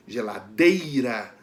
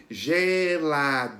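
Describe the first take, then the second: First: Geladeira with a strong, drawn-out dei; slow geladeira, leaning hard on dei; stress on DEI. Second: Geladeira slowly stretched, each syllable apart; slow teacher's breakdown of geladeira. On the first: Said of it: "a gente pronuncia com mais força". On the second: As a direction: sound out geladeira evenly in long syllables. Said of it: "Qual é a sílaba que a gente pronuncia com mais força?". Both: Shown as a demonstration.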